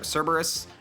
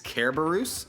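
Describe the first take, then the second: First: The word begins with a soft S sound. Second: The word begins with a hard K sound.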